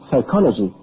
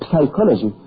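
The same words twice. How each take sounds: First: The word starts without a p sound. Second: The word starts with a p sound. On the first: The speaker calls it right. "The P is silent" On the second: The speaker calls it wrong. "you don't say psychology"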